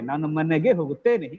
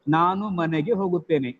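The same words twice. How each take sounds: First: Some words are stressed more than others. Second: Every word gets equal stress.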